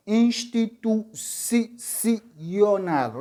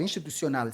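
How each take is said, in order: First: "Institucional" very slowly as ins-ti-tu-ci-o-nal; teacher's slow, chopped-up "Institucional", repeating the "ci"; syllable by syllable. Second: Said in the usual way. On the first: Shown as a demonstration. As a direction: sound out each syllable of "Institucional" separately. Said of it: "Onde está a sílaba tônica".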